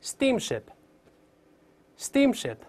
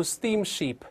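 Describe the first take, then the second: First: Steamship said very slowly, long ee then short i; correct pronunciation. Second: Steamship said wrongly, the way not to say it, slowed down; wrong pronunciation. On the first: Teacher leading the class, slow correct steamship. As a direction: model steamship carefully, syllable by syllable. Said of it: "大声来一遍". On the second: Teacher warning students, demonstrating wrong steamship. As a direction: show the mistake in steamship slowly. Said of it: "注意不要读steamship". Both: Shown as a demonstration.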